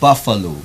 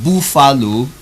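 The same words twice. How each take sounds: First: The first vowel matches the one in cup. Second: The first vowel differs from the one in cup. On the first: The speaker calls it right. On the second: The speaker calls it wrong. "not buffalo"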